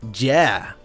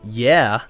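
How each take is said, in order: First: It begins with a hard j sound. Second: It begins with a soft y sound. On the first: "they said yeah" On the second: "instead of saying yeah"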